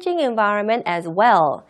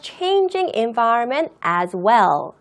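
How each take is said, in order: First: It is read at a quicker pace. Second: It is read at a slower pace. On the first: "방금 제가 읽었던 속도" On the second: "방금 제가 읽었던 속도보다는 조금 천천히"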